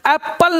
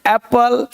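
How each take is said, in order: First: First एप्पल as "ap-pal", p held; geminated एप्पल; doubled consonant. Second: Second एप्पल as "ae-pal", one p; undoubled एप्पल; single consonant. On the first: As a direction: sound both p's in एप्पल. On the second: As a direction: let एप्पल glide through a single p. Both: Shown as a demonstration. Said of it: "नहीं".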